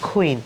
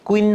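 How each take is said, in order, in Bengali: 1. প্রথম ধ্বনিতে জোরালো বাতাসের ফুঁ আছে। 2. প্রথম ধ্বনিতে কোনো বাতাসের ফুঁ নেই। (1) "আমরা বলবো কুইন" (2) "কুইন না বলে"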